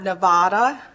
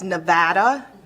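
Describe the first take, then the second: First: The stressed A sounds like the vowel in father. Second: The stressed A sounds like the vowel in cat. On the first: The speaker calls it wrong. "and not Nevada" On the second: The speaker calls it right. "we are a hard A Nevada"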